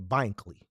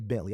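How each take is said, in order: First: The middle consonant is a k sound. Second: The middle consonant is a t sound. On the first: This is the speaker's own way of saying it. "I say Bankley" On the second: This is the way the speaker does not say it. "I don't say Bentley"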